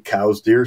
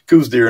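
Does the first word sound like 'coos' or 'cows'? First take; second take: cows; coos. First: The first word rhymes with 'house'. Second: The first word rhymes with 'goose'. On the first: This follows the namesake's own name. The speaker calls it right. "it's technically cow's deer" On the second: This follows the spelling of the name. The speaker calls it wrong. "mispronounce it as"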